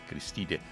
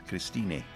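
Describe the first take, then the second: Both takes have the same delivery.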